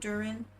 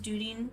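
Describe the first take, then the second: First: The middle consonant sounds like an English r. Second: The middle consonant sounds like a quick d. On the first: The speaker calls it wrong. "not Durin" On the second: The speaker calls it right. "I'm pretty sure it's Dudin"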